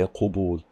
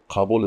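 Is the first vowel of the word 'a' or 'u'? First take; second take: u; a. First: The first vowel is an 'u' sound. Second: The first vowel is an 'a' sound. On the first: The speaker calls it wrong. "Don't say qabul" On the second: The speaker calls it right. "Qabul is the only one that takes fathah with that form"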